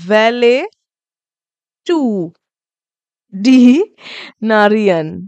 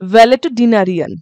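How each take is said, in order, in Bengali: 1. এটি প্রতিটি সিলেবলের মাঝে বিরতি দিয়ে ভাঙা হয়। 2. এটি একটি সংযুক্ত শব্দ হিসেবে মসৃণভাবে বলা হয়। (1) "যেরকম আমি ভেঙে ভেঙে বললাম" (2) "একসাথে বললে এরকম"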